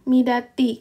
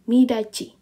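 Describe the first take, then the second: First: The consonant before the final vowel is t. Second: The consonant before the final vowel is ch. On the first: The speaker calls it wrong. "kalau kita baca kan sebenarnya midati" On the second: The speaker calls it right. "maka dia menjadi ci"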